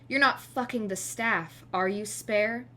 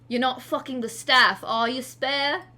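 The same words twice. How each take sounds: First: It is spoken in the speaker's usual accent. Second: It is spoken in a put-on British accent.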